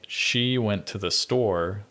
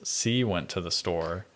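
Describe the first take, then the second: First: The first word begins with a 'sh' sound. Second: The first word begins with an 's' sound.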